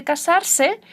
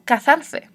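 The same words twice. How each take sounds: First: Casarse said with a clear s sound, slowly; teacher showing students the form not said in Córdoba; seseo pronunciation. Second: Cazarse with a lisped th sound, slowly; teacher modelling Córdoba speech for students; Córdoba ceceo. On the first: Slow teacher demo of casarse with s. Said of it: "se habla así". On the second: Slow teacher demo of Córdoba ceceo. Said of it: "en Córdoba, en España, se habla así". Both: Shown as a demonstration.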